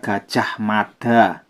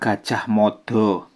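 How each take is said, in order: First: It is said in the Banyumasan dialect. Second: It is said in the Mataraman dialect. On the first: "dialek Banyumasan dibaca" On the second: "Kalau Mataraman dibaca"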